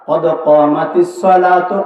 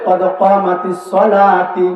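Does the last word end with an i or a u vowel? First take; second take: u vowel; i vowel. First: The last word ends with a u vowel. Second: The last word ends with an i vowel. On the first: The speaker calls it right. "এটা হলো সঠিক" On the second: The speaker calls it wrong. "সঠিক না ভুল? এটা ভুল।"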